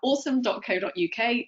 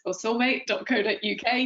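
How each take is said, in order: First: The name sounds like the English word awesome. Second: The name is said with a Japanese reading. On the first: This is how the company says its name. "you pronounce it awesome" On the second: This is how it would be read in Japanese. "known in Japan as osome"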